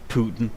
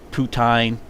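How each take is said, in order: First: The word is said like the name Putin. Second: The word is said as poo-teen. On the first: "I just call it Putin" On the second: "It's pronounced poutine"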